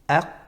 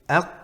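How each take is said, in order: Both takes have the same delivery.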